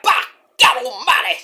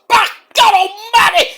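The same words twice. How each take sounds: First: A lighter second call of the catchphrase; Jim Ross impression. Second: Very high, loud, slow cry of "Back God Almighty"; Jim Ross impression. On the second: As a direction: scream it like a stunned play-by-play man. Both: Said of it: "Jim Ross!".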